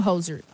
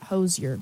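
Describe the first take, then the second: First: "Hozier" slipping into HOE-zher; slip in pronunciation. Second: "Hozier" as HOE-zee-er, lower; corrected pronunciation. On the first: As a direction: let "Hozier" lose its yer, with zh. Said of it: "sorry, I'm getting used to that". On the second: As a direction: correct yourself to "Hozier" with z plus yer. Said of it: "getting accustomed to the new pronunciation". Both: Real, not acted.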